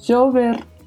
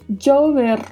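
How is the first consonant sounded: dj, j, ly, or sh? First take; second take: j; dj. First: The first consonant sounds like a soft 'zh'. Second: The first consonant sounds like English 'j'. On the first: "som de J" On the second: "som de DJ"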